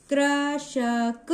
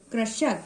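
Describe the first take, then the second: First: कृशक in slow separate syllables, higher; sounding out. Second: Said in the usual way. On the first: Shown as a demonstration. Teacher breaking a word into sounds for learners, slow sounding-out. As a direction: spell out कृशक sound by sound, stretched. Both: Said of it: "जोड़ के पढ़ रहे हो".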